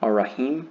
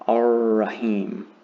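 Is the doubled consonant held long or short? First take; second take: short; long. First: The doubled consonant is said short, not held. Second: The doubled consonant is held for two counts. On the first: The speaker calls it wrong. "instead of saying" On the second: The speaker calls it right. "the shadda tells me to say"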